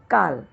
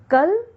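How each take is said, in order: First: काल with a long drawn aa, kaal; काल, stretch the aa. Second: कल said with a short a, kal; कल, short clipped vowel. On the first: Teacher contrasting काल with कल. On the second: Teacher contrasting कल with काल. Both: Shown as a demonstration. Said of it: "अंतर समझिए".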